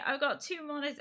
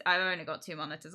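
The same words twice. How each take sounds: First: High-pitched proud boast; showing off. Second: Said in the usual way. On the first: Retold or imitated. Streamer showing two monitors to the kids, showing off.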